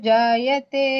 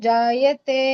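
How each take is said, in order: The two takes are said the same way.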